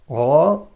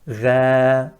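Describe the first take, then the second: First: The letter is heavy, with sound rising upward. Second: The letter is light, with sound going downward. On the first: "Sound is going upwards" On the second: "sound is going downwards"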